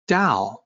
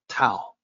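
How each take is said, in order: First: The word begins with a soft D sound. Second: The word begins with a T sound. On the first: The speaker calls it right. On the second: The speaker calls it wrong.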